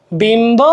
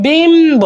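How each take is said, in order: First: Said in the usual way. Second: বিম্ব drawn out high, "bimmm-bo"; stretched clear b. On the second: Shown as a demonstration. Teacher demonstrating the kept b, high stretched বিম্ব. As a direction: lift and lengthen বিম্ব before sounding the b. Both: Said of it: "এভাবে উচ্চারণ".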